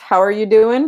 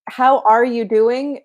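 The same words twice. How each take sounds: First: The words are run together and shortened. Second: Every word is said fully and separately. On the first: This is the casual form. "if we want to uh, contract" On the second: This is the proper form. "is the proper"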